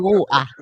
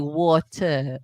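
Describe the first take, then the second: First: It has a South London accent with no T. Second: It is said carefully with a clear T.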